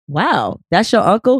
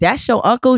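First: It is said as an impressed, interested question. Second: It is said as a flat, plain statement.

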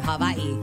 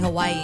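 First: It is said the local Hawaiian way. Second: It is said the non-local, outsider way. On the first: The speaker is from the islands. The speaker calls it right. "you say Hawaii" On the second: The speaker is not from the islands. The speaker calls it wrong. "you are not supposed to say Hawaii"

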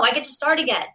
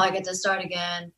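First: It is said with excitement and gratitude. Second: It is said reluctantly, with dread.

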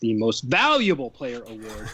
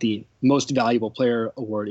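First: The word valuable is strongly emphasized. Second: The word valuable carries no special emphasis. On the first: The award goes to the player most important to the team. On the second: The award goes to the best player overall.

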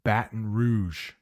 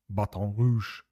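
First: It is pronounced the English way. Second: It is pronounced the French way. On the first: "is how we pronounce it" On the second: "I think is how you say it in French"

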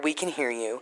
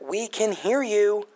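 First: It is said plainly, without that attitude. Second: It is said with a strong, sassy attitude.

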